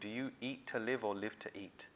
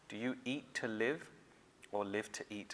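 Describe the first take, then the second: First: The question is said at a normal pace. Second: The question is said slowly and deliberately.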